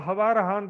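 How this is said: The words begin with an h sound.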